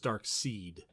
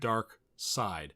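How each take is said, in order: First: The second part rhymes with 'need'. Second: The second part rhymes with 'ride'. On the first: This is how the speaker long misread it. The speaker calls it wrong. "When I first saw it for years, I thought it was" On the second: This is how the source material says it. The speaker calls it right. "every time I've heard it pronounced on the source material, they said"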